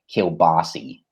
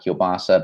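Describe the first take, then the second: First: The word ends with an 'ee' sound. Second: The word ends with an 'ah' sound. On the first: "they say, like, kielbasi" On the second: "you might have kielbasa"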